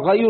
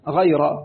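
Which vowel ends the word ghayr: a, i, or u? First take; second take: u; a. First: The word ends with the vowel u. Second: The word ends with the vowel a. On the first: The word describes those who stay behind. "بالرفع غير أولي الضرر" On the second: The word is an exception or a circumstantial phrase. "بنصب الراء غير"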